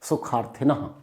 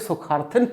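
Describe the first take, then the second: First: The word ends with a short breathy h sound. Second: The word ends without a breathy h sound. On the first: The speaker calls it right. "विसर्ग आधा हा की आवाज देता है" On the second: The speaker calls it wrong. "अगर आपने इसे सुखार्थिन पढ़ दिया तो सब खराब हो गया"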